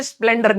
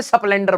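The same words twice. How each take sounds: First: Said in the usual way. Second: स्प्लेंडर with an extra vowel breaking the sp, se-splendar; स्प्लेंडर as esəplendar with a slipped-in vowel; local pronunciation. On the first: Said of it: "हमारे यहाँ पे स्प्लेंडर नहीं बोलते". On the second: Shown as a demonstration. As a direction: say स्प्लेंडर the village way, sə-pleɳɖər. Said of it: "स्प्लेंडर बोलते हैं".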